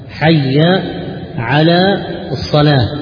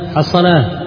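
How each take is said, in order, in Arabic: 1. كل كلمة من العبارة منطوقة بوضوح. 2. العبارة مدغمة في كلمة واحدة قصيرة. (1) "وهي حي على الصلاة" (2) "بعض الناس في الأذان مثلا يقول حصل حصل"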